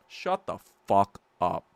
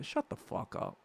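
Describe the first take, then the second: First: Said in the usual way. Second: Breathy whispered dismissal. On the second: Real, not acted. Streamer whispering a dismissal at critics, under his breath. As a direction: hiss it under your breath. Whispered aside mid-rant.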